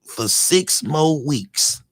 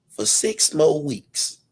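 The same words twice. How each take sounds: First: Very slow, falling and firm; slow emphatic. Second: Slow, rising plea; slowed for emphasis. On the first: Restating the favor to the streamer, very slow and firm. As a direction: lay each word down like terms. Repeating the request firmly. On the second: Pleading with the streamer to keep it up, slow and rising. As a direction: stretch each word like a deal offer. Asking a favor, dragging words. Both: Acted.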